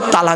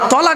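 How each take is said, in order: First: The first vowel is an 'a' sound. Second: The first vowel is an 'o' sound. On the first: It means joining or coming together. The speaker calls it wrong. "সব তালাক বলি" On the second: It means separating or giving a divorce. The speaker calls it right. "আমরা তলাক না বলে"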